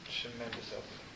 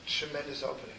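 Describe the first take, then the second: First: Much softer, hushed repeat; preacher repeating it quietly; soft echo. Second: Said in the usual way. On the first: Shown as a demonstration. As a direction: let the echo fall to a murmur. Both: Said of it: "You know what's happening".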